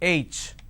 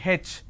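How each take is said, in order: First: The letter is said the standard way. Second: The letter is said the southern Indian way. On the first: The speaker calls it right. "It's not H, it's H" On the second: The speaker calls it wrong. "in southern part of India, everybody pronounces this letter as H"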